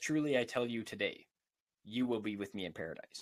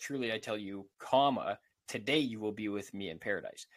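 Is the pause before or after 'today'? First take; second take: after; before. First: The pause comes after 'today'. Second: The pause comes before 'today'.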